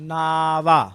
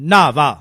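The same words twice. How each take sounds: First: The word is said flat, without emphasis. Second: The word is said heavy, with emphasis. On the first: It means name. "Straight ... no emphasis no nothing" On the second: It means to bathe. "ਇਹਨੂੰ ਭਾਰਾ ਬੋਲਣਾ ਹੈ"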